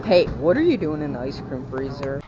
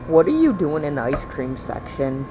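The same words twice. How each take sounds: First: Loud call at the freezer; shouting. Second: Loud call across the store; shouting. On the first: Yells at the freezer. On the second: Yells again at ice cream. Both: Real, not acted. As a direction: shout it at full volume.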